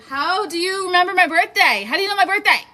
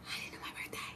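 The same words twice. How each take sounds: First: High and loud, thrilled disbelief; excited disbelief. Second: Breathless whispered disbelief. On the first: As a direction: shriek it out, delighted and surprised. Viewers know her birthday. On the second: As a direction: hush it like a stunned secret. Repeats the question whispered. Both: Real, not acted.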